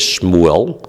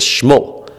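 First: Shmuel with the El sounded, shmoo-EL; full pronunciation. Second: Shmuel cut to one syllable, shmool; shortened pronunciation. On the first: Teacher on a reader's choice, Shmuel said fully as shmoo-EL. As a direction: give Shmuel both vowels, shmoo-EL. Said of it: "the guy won't read it as". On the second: Teacher showing the misreading, Shmuel shortened to shmool. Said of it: "he'll read it as". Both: Shown as a demonstration.

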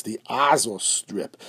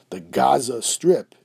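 First: Azos said slowly, opening on a vowel with no G; ayin pronunciation. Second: Said in the usual way. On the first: Shown as a demonstration. Teacher giving the Hebrew name as an example, Azos begun with ayin, no G. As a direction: say Azos with an ayin in place of the hard G. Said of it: "it's spelled with an ayin". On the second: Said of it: "just as an example".

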